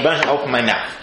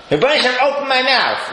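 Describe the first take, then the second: First: Said in the usual way. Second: Higher, lifted plea to God; raised prayer line. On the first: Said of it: "we're saying". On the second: Shown as a demonstration. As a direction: lift the words up as a prayer. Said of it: "I say".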